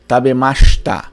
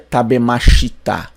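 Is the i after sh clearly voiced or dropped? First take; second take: dropped; clear. First: The i after sh is dropped. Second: The i after sh is fully pronounced. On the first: The speaker calls it right. "Temos um sh e não um shi" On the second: The speaker calls it wrong. "o japonês não pronuncia tabemashita"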